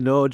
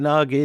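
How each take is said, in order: First: The name sounds like 'nodge', the Hungarian way. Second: The name is read as English spelling suggests. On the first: The speaker calls it right. "Nodge is your Hungarian pronunciation" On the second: The speaker calls it wrong. "all of us ignoramuses have been reading this as Nagy"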